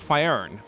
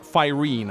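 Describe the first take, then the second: First: The name is said as Faern. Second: The name is said as Faerun. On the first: The speaker calls it right. "which is the name of his continent" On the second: The speaker calls it wrong. "not Faerun as I have previously pronounced it"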